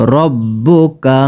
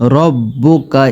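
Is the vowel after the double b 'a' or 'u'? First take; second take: u; u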